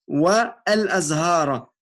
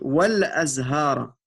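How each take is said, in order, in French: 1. Wa et al sont prononcés en syllabes séparées. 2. Wa et al se fondent en une seule syllabe, wal. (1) "on dit pas" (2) "On dit"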